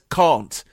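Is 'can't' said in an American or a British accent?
British. It has a long British 'ah' vowel. "when a British singer says can't"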